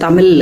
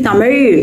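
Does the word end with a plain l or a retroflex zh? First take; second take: plain l; retroflex zh. First: The word ends with a plain l sound. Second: The word ends with a retroflex zh sound. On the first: The speaker calls it wrong. "நம்ம பேச்சு வழக்கில் ரொம்ப ஈஸியாக" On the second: The speaker calls it right. "எழுன்னு சொல்கிறதுக்கு சிரமப்பட்டுட்டு"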